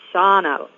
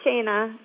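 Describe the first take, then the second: First: The first vowel is an open 'ah'. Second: The first vowel is not an open 'ah'. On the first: The speaker calls it right. "It's Ah, Shauna" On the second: The speaker calls it wrong. "it's not Shana"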